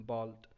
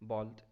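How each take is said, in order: No difference in how they are said.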